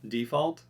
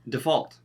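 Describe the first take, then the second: First: The stress is on the first syllable. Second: The stress is on the second syllable. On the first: It is used as a noun. "we're going to do the noun" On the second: It is used as a verb. "then we're going to do the verb"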